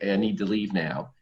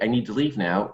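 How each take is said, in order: First: It is said with little energy. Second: It is said with more energy. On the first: The speaker says it for the first time. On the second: The speaker feels unheard and repeats it.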